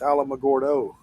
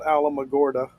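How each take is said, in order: First: The name ends with an 'oh' vowel sound. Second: The name ends with an 'uh' vowel sound. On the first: The speaker calls it right. "It's Alamogordo" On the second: The speaker calls it wrong. "It's not Alamogorda"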